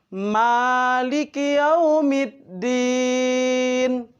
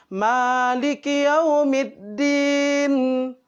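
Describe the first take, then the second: No difference in how they are said.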